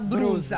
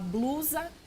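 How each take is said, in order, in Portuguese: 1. O segundo som é um R batido. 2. O segundo som é um L claro. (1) "fala brusa" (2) "ao invés de falar blusa"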